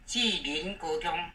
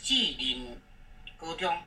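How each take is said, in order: First: The second syllable is not in the third tone. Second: The second syllable is in the third tone. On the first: The speaker calls it wrong. "这个是不对" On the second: The speaker calls it right. "这个人要发第三声"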